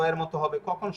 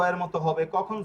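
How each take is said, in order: Both takes have the same delivery.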